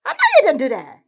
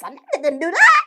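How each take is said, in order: First: Said in the usual way. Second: Laughing through it; laughing disbelief. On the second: Real, not acted. Ranting at a scammer, laughing in disbelief.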